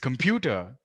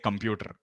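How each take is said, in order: First: The final R sound is soft and light. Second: The final R sound is strong and heavy. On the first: "The standard way of saying it is computer" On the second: "we give that really strong R sound"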